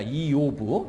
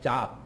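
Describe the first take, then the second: First: The name is said as 'ee-yov'. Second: The name is said as 'jahb'. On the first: This is the original Hebrew form. "히브리어로 보면 이게 이요브입니다" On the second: This is the English-style reading. "영어로 보면은 ... 잡"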